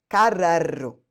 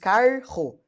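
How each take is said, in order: First: The double r is split into two sounds. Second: The double r is one single sound. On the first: The speaker calls it wrong. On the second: The speaker calls it right.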